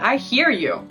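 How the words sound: It is said in an angry, resentful tone.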